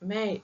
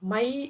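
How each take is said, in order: First: The vowel sounds like a nasalized 'ay'. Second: The vowel sounds like 'eye', with no nasal. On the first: The speaker calls it right. "மே மே அப்படின்னு தான் சொல்லுவாங்க" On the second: The speaker calls it wrong. "ஹிந்தியில மை அப்படின்னு சொல்ல மாட்டாங்க"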